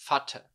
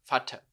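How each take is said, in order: Both takes have the same delivery.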